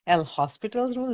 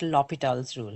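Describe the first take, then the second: First: The name is said with an S sound. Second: The name is said without an S sound. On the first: "Some people also end up talking about Los L'Hospital's rule" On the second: "There's no S in there, so I just pronounce it L'Hopital's rule"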